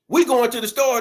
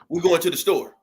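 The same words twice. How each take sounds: First: It is said loudly, in a yell. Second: It is said in a calm, normal voice. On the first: It comes across as aggressive. The speaker calls it wrong. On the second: A plain, friendly announcement. The speaker calls it right.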